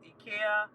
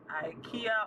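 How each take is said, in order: First: IKEA is pronounced the European way. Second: IKEA is pronounced the American way.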